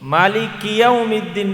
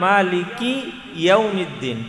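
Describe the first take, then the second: First: The first word ends on a bare k sound. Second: The first word ends with a short i vowel. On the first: The speaker calls it wrong. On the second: The speaker calls it right.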